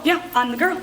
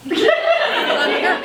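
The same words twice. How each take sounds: First: Said in the usual way. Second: High, drawn-out, showy announcement; hammed-up boast. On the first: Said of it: "I'm still pumped up". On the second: Party consultant announcing herself to guests, hammed-up excitement. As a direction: stretch it out way up high, proudly. Repeats her boast, hamming it up.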